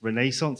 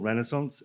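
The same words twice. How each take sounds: First: It is said in the speaker's own British way. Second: It is said in an American way.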